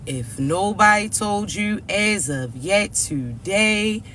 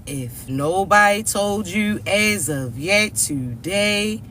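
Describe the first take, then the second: No difference in how they are said.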